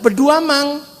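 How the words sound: The name is said the Bugis way, Beduamang.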